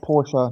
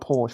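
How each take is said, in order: First: The name ends with a pronounced final vowel. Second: The name ends with a silent final E. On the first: The speaker calls it right. "it's pronounced" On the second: The speaker calls it wrong.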